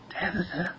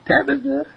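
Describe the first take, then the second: First: Very soft, high little call; hushed, high-pitched coaxing; secretive ear whisper. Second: Very high-pitched singsong call; pitched way up to get the cat's attention; high coaxing call. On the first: A narrator's reading. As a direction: whisper the cat's name into her ear. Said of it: "mouth right next to Tabitha's ear". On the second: Acted. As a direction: call the cat in a tiny high voice. Calling the cat a second time.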